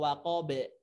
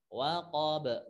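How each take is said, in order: First: The final b releases with an e. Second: The final b releases with a faint a. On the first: The speaker calls it wrong. "atau waqabe, bukan" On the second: The speaker calls it right. "setengah fathah"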